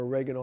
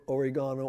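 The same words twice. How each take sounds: First: "oregano" as uh-REG-uh-no; alternate pronunciation. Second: "oregano" as or-ih-GAH-no; alternate pronunciation. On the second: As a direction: say "oregano" with the stress on GA. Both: Shown as a demonstration. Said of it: "however you pronounce it".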